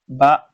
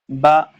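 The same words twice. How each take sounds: First: The vowel is short like a fatha sound. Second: The same.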